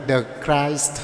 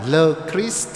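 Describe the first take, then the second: First: "the Christ" slowly with an English eye vowel; slow, careful English "the Christ"; English pronunciation. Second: "Le Christ" slowly with a French ee vowel; slow, careful French "Le Christ"; French pronunciation. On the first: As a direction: say "the Christ" to rhyme with "iced". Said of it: "và tiếng Anh là". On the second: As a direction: say "Le Christ" as French, rhyming with "east". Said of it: "tiếng Pháp là". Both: Shown as a demonstration.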